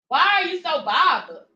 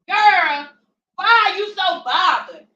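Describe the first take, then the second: First: It is said in the speaker's own voice. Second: It is said imitating K's voice.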